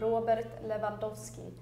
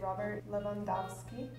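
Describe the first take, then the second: First: The name is said in a Swedish way. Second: The name is said in an American way. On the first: "So in Swedish, we would say" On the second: "In America, they say"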